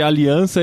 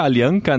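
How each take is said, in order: First: Said in the usual way. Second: "Alianca" with a hard k sound before the final a; spelled without cedilla. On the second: Shown as a demonstration. Host spells out web address for listeners, "Alianca" pronounced with a k. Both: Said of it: "Alianca, né".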